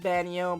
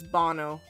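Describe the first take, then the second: First: The name has a y sound after the n. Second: The name has no y sound after the n. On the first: The speaker calls it wrong. "Whenever people get my name, it's always Banyo, but it's not" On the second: The speaker calls it right. "there's no I sounding"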